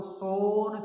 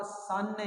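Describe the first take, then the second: First: "सोन" with a long drawn-out "oh"; "सोन" with ओ instead of a short "uh"; mispronounced son. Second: "सन" with a short "uh" vowel; "सन" short, without any "oh" sound; correct son. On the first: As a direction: say "सोन" rhyming with bone, wrongly. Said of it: "सोन थोड़ी बोलते हो". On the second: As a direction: say "सन" rhyming with fun. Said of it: "इसको बोलते हो आप सन". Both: Shown as a demonstration.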